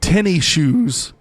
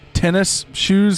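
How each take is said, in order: First: The word tennis loses its final s sound. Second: The word tennis keeps its final s sound. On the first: "I always called them uh, tenny shoes. Because that's how everyone in Texas just talks" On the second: "the proper pronunciation is tennis shoes"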